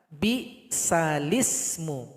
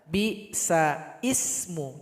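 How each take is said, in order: First: The l links straight into ismu without a catch. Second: A glottal catch comes before ismu. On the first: The speaker calls it right. "mesti dibaca bi salismu" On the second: The speaker calls it wrong. "Salah kalau dibaca"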